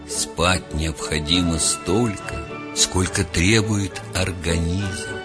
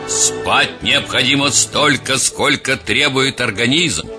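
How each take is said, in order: First: It is said in a slightly softer, gentler tone. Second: It is said in a firmer, harder tone.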